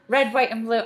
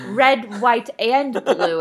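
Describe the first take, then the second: First: It is said at a normal pace. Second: It is said slowly and deliberately.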